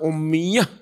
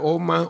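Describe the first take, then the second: First: It is said with an added iya sound, omiyah. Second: It is said plainly as omah. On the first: "Orang Banyuwangi" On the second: "bacanya bukan omah"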